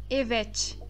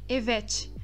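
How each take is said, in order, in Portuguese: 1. O T final soa como um T português. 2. O T final soa como um T português.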